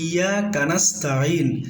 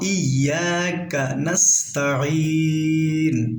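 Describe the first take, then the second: First: The k sound runs into the following n. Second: The k sound is kept separate from the n. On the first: The speaker calls it wrong. "যেন এরকম না পড়ি" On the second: The speaker calls it right. "এরকম পড়ার চেষ্টা করব"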